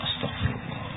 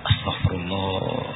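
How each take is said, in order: First: Astagfirullah whispered, breath only; whispered repentance. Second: Astagfirullah murmured low and slow; low murmured repentance. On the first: The same repenting man, now barely whispering. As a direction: let astagfirullah fade into a whisper. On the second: A man repenting alone at night, murmuring low and slow. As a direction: sigh out Astagfirullah slowly under the breath. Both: Acted.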